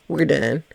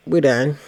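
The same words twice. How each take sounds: First: Said through a laugh. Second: Said in the usual way. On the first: Shown as a demonstration. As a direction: laugh as you repeat it. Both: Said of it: "That's it".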